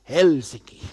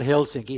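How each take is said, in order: First: Helsinki stressed on the first syllable, HEL; Finnish stress. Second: Helsinki with stress on the middle syllable; wrong stress. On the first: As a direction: Helsinki with a strong HEL and light sinki. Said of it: "they pronounce the first vowel". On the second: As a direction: Helsinki said the English way, stress on sin. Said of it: "they pronounce the first, uh, vowel". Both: Shown as a demonstration.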